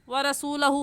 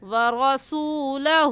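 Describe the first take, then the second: First: The final hu vowel is short. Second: The final hu vowel is stretched long. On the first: The speaker calls it wrong. "व रसूलहु फ़इन्ना कहना गलत है" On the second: The speaker calls it right. "एक अलिफ के बराबर खींच कर पढ़ते हैं"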